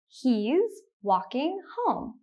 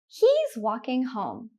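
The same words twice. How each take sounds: First: The sentence is spoken slowly. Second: The sentence is spoken at normal speed. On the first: "The first time I will say it slowly" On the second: "The second time I will say it at a normal speed"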